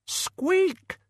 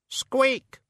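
First: Even higher, sharp rat squeak; urgent squeak. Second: Very high rat squeak; tiny squeak. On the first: Acted. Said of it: "Death of Rats insists". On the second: A narrator's reading. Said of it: "said the Death of Rats".

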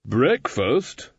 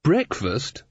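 First: "breakfast" stretched out with a rising end; incredulous repeat. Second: Puzzled query. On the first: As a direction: draw out "breakfast" in disbelief. Susan repeats it, more incredulous. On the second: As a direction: ask it in mild surprise. Susan puzzled, first take. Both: A narrator's reading.

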